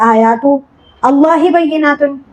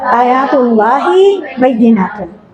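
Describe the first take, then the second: First: The first two words are said separately. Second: The first two words are joined together. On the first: The speaker calls it wrong. "आप ऐसे नहीं पढ़े" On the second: The speaker calls it right. "आप कैसे पढ़े"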